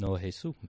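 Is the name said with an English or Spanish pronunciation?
Spanish. The name is said the Spanish way. The name is an ordinary person's name. "no Jesús"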